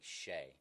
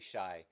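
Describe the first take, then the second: First: The name rhymes with 'day'. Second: The name rhymes with 'sky'. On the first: The speaker calls it right. "It's pronounced like S H A Y, so like Shay" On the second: The speaker calls it wrong. "We keep saying Shy"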